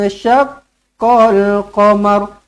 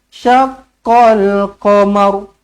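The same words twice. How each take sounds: The two takes are said the same way.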